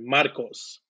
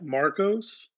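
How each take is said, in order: First: The name is said with Spanish pronunciation. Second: The name is said with English pronunciation. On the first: "and then in Spanish" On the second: "Say your first name in English"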